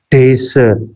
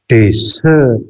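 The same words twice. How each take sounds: First: The stress is on the first syllable. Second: The stress is on the second syllable. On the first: A dry sandy region. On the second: To leave without permission.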